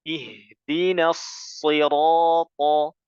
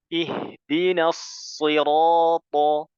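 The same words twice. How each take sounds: The two takes are said the same way.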